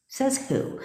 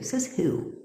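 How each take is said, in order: First: Same question again, pitched much higher and pushier; indignant challenge. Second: Said in the usual way. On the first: Real, not acted. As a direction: fire it back high, daring anyone to answer. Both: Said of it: "I hate those sayings".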